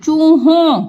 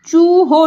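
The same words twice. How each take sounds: First: "चूहों" with a nasal õ at the end; nasalised ending. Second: "चूहो" ending on an oral o; the mistaken "चूहो", no nasal; without nasal. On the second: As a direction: say "चूहो" with a plain open o at the end. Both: Shown as a demonstration. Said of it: "चूहो नहीं होगा ये".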